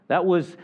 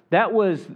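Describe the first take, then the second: No difference in how they are said.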